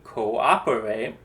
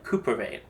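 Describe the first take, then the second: First: The two o's are said as separate vowels. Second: The two o's merge into one vowel. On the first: The speaker calls it right. "you pronounce a letter like in cooperate" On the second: The speaker calls it wrong. "make sure we don't pronounce it like cooperate"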